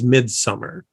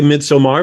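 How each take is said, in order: First: It is said with an American pronunciation. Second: It is said with a British or European pronunciation. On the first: "The American accepted pronunciation for this" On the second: "that is the British or European pronunciation"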